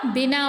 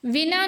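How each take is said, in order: First: बिना said as "binaa"; ब sound. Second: बिना said higher as "vinaa". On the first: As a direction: open बिना with closed-lip b. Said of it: "ब लिखेंगे". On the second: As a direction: open बिना with a v. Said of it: "बिना नहीं होता". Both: Shown as a demonstration.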